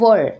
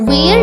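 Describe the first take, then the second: First: The vowel is short, like 'ur'. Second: The vowel is long, like 'air'. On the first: The speaker calls it right. "इसकी सही pronunciation है वर" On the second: The speaker calls it wrong. "इसे ना वेयर नहीं बोलते हैं"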